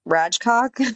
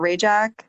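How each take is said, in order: First: The name is said with a 'cock' ending. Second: The name is said with a short 'jak' ending. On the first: This is how the spelling makes it look. The speaker calls it wrong. "when you see the way it's spelled, it's like spelled R A J C O K. It's kind of Rajcock" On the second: This is how the family actually says it. The speaker calls it right. "they pronounce it Rajak"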